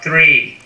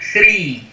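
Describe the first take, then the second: First: The R is an American retroflex R. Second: The R is tapped, Brazilian-style.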